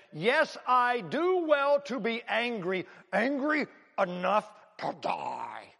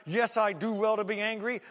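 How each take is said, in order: First: Slow, defiant, each word laid down; bold retort. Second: "Yes" hit hard, fist-shaking anger; angry retort. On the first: Jonah boldly answering God, slow and defiant. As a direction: dig in and defy God, drawn out. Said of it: "pretty boldly said". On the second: Jonah shaking his fist at God, angry. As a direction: spit it up at the sky. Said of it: "he is so angry". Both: Acted.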